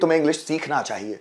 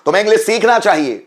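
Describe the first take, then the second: First: It is said in a gentle, polite tone. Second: It is said in a firm, commanding tone. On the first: It is a piece of advice. "बिल्कुल polite manner में बोलूंगा" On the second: It is an order. "ये आदेश है।"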